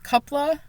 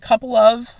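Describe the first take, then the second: First: The words blur together into one reduced form. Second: Both words are said fully and separately. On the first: The speaker calls it right. "but it's coupla" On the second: The speaker calls it wrong. "I'm saying couple of"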